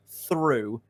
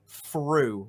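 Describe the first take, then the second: First: It begins with a standard TH sound. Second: It begins with an F sound, regional English.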